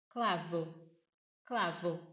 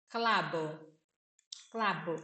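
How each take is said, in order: First: Clavo said with a light, weak V in the middle, klavo. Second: Clavo said with a clear B in the middle, klabo; clavo with a B sound. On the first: Teacher gives the second version of Clavo with a weak V. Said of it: "ou um V mais fraco". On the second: Teacher demonstrates clavo for students with a B sound, klabo. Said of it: "vai ter som de B, de bola". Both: Shown as a demonstration.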